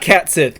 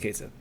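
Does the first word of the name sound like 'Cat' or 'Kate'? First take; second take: Cat; Kate. First: The first word rhymes with 'hat'. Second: The first word rhymes with 'gate'. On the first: The speaker calls it wrong. "Not Cat Sith" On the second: The speaker calls it right. "It's pronounced Kate Sith"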